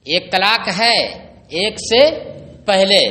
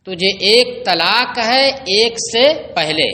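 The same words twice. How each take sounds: First: ایک طلاق ہے, ایک سے, پہلے each said apart with pauses between; phrase by phrase. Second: Said in the usual way. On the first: Shown as a demonstration. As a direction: break ایک طلاق ہے ایک سے پہلے into separate pieces to drive it home.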